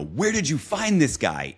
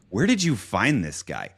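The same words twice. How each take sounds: First: It sounds delighted and admiring. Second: It sounds annoyed and disapproving. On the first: The person found is praised as excellent. "My big goal in every single event is that I want the leader to point to the event planner and go" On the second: The person found is blamed as a bad choice. "instead of"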